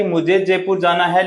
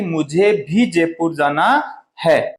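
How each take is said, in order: First: Said in the usual way. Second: Slow, "भी" pressed firmly; stress on भी. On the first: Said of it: "ये एक साधारण सी बात हो गई". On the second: Shown as a demonstration. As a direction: hit the word भी, slowly. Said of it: "बात को बल दे के कहते हैं".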